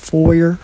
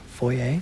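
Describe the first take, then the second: First: It ends with an R sound. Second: It ends without an R sound.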